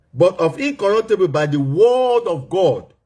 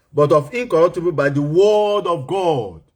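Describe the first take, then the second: No difference in how they are said.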